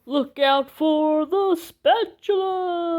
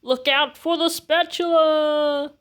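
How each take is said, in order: First: Higher, louder and slow, stretched-out heroic shout; dramatic drawn-out war cry; slow-motion battle cry. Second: Higher, louder heroic warning shout; battle cry. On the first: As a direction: draw it out like a slow-motion movie moment. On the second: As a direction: yell it like a rallying cry. New battle cry, first take. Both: Acted.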